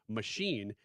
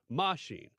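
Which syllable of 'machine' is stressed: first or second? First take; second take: second; first. First: The stress is on the second syllable. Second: The stress is on the first syllable. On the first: "instead of saying machine" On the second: "Emphasis on the ma"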